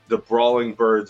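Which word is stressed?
birds. The stress falls on the word birds. These are birds, and they brawl. "the emphasis is on birds"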